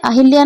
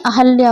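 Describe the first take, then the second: First: अहिल्या with a short i after the h; misspelt form. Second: Said in the usual way. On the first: Shown as a demonstration. Teacher shows students the error, saying अहिल्या with an i. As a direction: sound the extra i in अहिल्या. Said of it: "अहिल्या नहीं, अहल्या होता है". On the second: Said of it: "अहल्या होता है".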